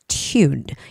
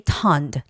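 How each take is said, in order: First: The vowel is long, like in 'tune'. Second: The vowel is short, like in 'tun'. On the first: The speaker calls it right. "but it's tuned" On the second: The speaker calls it wrong. "make sure don't say tunned"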